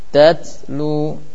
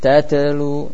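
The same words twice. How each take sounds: First: The middle t has a soft, breathy release. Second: The middle t has a bouncing, echoing release. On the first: The speaker calls it right. "Jadi hamas saja" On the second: The speaker calls it wrong. "jangan pula menjadi kol-kolah"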